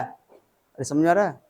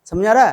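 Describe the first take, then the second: First: Drawn-out check. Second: Said in the usual way. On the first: Real, not acted. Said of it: "repeats the check, drawn out". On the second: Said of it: "teacher asks class".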